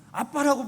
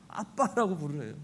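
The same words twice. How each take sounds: First: Put-on 아빠라고 said louder, higher, like a small child; child calling dad. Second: Said in the usual way. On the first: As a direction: call out 아빠라고 like a little kid running up. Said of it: "어린 자녀가". (어린아이처럼 크게 부르는 아빠라고)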